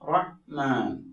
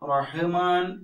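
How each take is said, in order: First: The consonant is closed with no added vowel. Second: A short vowel follows the consonant. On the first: The speaker calls it right. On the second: The speaker calls it wrong.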